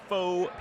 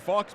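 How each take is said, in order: First: The word is said without a final x sound. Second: The word is said with a final x sound.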